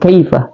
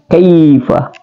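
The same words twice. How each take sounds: First: The first syllable's vowel is short. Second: The first syllable's vowel is held long. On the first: The speaker calls it wrong. "tidak boleh kaifa" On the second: The speaker calls it right. "dipanjangkan dua harakat"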